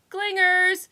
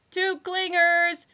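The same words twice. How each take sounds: First: High, loud call from far off; distant relay. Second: High, loud, slow yell. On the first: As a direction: echo it from down the hall. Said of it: "relayed a distant voice". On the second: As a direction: shout it down the hall. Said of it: "yelled a voice". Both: A narrator's reading.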